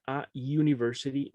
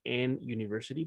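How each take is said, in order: First: "a university" with A before the YU sound; correct article A. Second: "an university" with an N before the YU sound; wrong article AN. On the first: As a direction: say "a" then a consonant-like "yu" in "university". ("a university" con A ante el sonido YU, como consonante) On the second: ("an university" con una N errónea ante el sonido YU) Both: Shown as a demonstration. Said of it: "no se dice an university".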